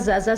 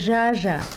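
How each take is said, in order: First: The name begins with a plain 'z' sound. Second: The name begins with a soft 'zh' sound. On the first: The speaker calls it wrong. "mon nom, c'est pas Zaza" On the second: The speaker calls it right. "c'est Jaja"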